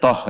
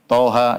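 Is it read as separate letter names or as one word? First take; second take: one word; letter names. First: It is said as one short closed word. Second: Two letter names are said, ending in a vowel. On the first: The speaker calls it wrong. "jangan dibaca toh ya" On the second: The speaker calls it right. "Sama seperti Toha"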